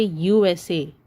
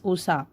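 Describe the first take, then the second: First: "U S A" said letter by letter; name each letter in "U S A"; spelled out. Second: "usa" run together as oo-sah; read as a word. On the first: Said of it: "You say U S A". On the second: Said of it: "You do not pronounce it as". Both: Shown as a demonstration.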